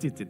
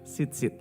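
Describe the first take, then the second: First: The word begins with a 'ch' sound. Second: The word begins with an 's' sound. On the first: The speaker calls it wrong. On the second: The speaker calls it right.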